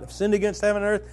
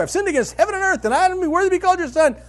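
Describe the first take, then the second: First: Rehearsing under his breath. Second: "I've sinned against heaven and earth" blurted high and loud, fast; launched plea. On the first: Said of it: "practicing your line". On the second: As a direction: rush the rehearsed confession out at full volume. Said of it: "he launches into a speech right away". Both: Retold or imitated.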